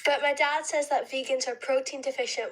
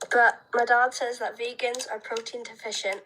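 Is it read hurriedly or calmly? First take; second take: hurriedly; calmly. First: It is read hurriedly, rushing through. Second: It is read calmly, with meaning.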